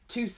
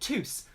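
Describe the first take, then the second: First: The name ends with a vowel sound. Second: The name ends with an s sound. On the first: The speaker calls it right. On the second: The speaker calls it wrong.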